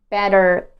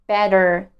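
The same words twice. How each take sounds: The two takes are said the same way.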